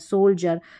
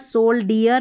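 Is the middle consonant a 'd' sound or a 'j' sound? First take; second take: j sound; d sound. First: The middle consonant is a 'j' sound. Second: The middle consonant is a plain 'd' sound. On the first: The speaker calls it right. "सोल्जर पढ़ते हैं" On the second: The speaker calls it wrong. "यहाँ पर सोल्डियर नहीं पढ़ते हम"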